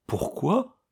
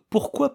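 First: High puzzled echo of the word Pourquoi; baffled, high questioning Pourquoi; bewildered echo. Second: Said in the usual way. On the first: Acted. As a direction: repeat Pourquoi, thrown off. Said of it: "déroutée". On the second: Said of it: "répéta miss Estcourt".

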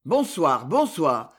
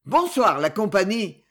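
First: Low, grumbling reply; grumbled. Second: Lofty, condescending hello; haughty greeting. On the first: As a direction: mutter it grudgingly. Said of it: "grommelèrent les camarades". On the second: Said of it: "salua-t-il de haut". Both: A narrator's reading.

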